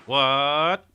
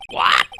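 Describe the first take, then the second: First: High, rising disbelief; a startled, climbing What?; shocked question. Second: Louder, falling What? shouted down; loud flat What. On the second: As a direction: hit What? hard and drop it. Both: Acted. Shocked at hearing her name.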